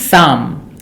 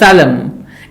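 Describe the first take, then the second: First: Neither the P nor the L is heard. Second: A P or L sound is pronounced. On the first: The speaker calls it right. "P and L both are silent, so it is psalm" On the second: The speaker calls it wrong. "not psalm"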